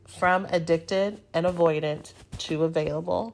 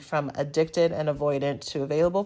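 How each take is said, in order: First: The name is said slowly. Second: The name is said fast.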